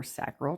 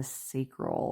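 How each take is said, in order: First: "sacral" with a short A, as in "sack"; "sacral" with the flat vowel of "cat"; SACK-rul pronunciation. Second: "sacral" with a long A, as in "say"; "sacral" rhyming its first syllable with "day"; SAY-krul pronunciation. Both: Shown as a demonstration. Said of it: "depending on how you say".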